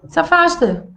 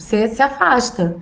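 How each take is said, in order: First: "Se afasta" dito mais agudo e firme. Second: Said in the usual way. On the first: Shown as a demonstration. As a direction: repita "Se afasta" com mais ênfase e tom alto. ("Se afasta" em tom firme e mais agudo)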